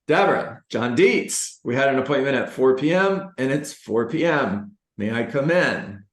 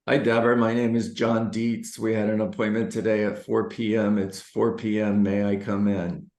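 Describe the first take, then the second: First: It is said with lively, high energy. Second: It is said flatly, with no energy.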